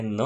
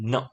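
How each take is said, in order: First: ન drawn out as "naaa"; wrong long na. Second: ન cut off short; short n sound. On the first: Teacher showing what not to read, ન held long. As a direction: stretch the vowel on ન. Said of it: "ન નથી વાંચવાનું". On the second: Teacher reminding pupils, ન kept very short. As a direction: stop ન almost as soon as it starts. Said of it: "ટૂંકો". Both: Shown as a demonstration.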